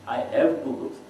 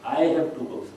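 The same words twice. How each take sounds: First: The stress falls on the word have. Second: The stress falls on the word I.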